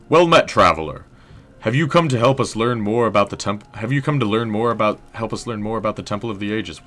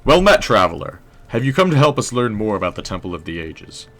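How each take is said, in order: First: Higher stoic historian voice, stumbling and restarting; drifting British-tinged historian, tripping over the greeting; stoic historian, flubbed take. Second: Stoic historian voice, louder opening greeting; smooth, faintly British historian welcoming a visitor; stoic historian, clean take. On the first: Historian greeting a traveler at the temple, stoic but fumbling. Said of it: "Maybe he's stoic". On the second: Historian greeting a traveler at the temple, stoic and unbroken. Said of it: "Let's do another take". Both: Acted.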